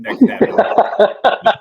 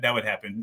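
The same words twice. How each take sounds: First: Slow, breathy words through laughter; whispered laugh. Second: Said in the usual way. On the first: Real, not acted. Host joking with cohost about tripping over the chair, whispered laughing. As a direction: laugh it out under your breath.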